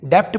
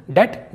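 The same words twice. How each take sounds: First: डेप्ट said "dept", consonant before T; mistaken B sounded. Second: डेट said "det", straight to T; no B sound before the T in डेट; silent B. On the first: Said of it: "कई लोग इसे डेप्ट पढ़ते हैं". (डेप्ट में ट से पहले प की आवाज़) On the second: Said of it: "जबकि ये होगा दोस्तों". (डेट में ब साइलेंट, सीधा ट) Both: Shown as a demonstration.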